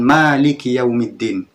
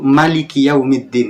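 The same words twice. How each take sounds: First: The vowel after the m is long. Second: The vowel after the m is short. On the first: God is the owner of all affairs on Judgment Day. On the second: God is the king of the Day of Judgment. "dengan memendekkan mimnya"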